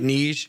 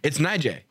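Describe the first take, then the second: First: The name is said as one short syllable. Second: The name is said with two syllables. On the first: The speaker calls it wrong. "You know how we were pronouncing it" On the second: The speaker calls it right. "How she pronounces it"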